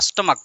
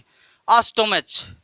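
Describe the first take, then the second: First: The word ends with a 'k' sound. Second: The word ends with a 'ch' sound. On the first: The speaker calls it right. "इसका right pronunciation होता है" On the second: The speaker calls it wrong. "गलत pronunciation है"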